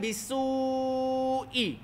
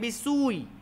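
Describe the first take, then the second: First: The vowel before the glottal stop is drawn long. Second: The vowel before the glottal stop is short. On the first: The speaker calls it right. "Jadi kita panjangkan" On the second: The speaker calls it wrong. "Kalau kita tak ada panjang ni"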